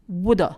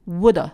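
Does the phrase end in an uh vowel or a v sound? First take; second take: uh vowel; uh vowel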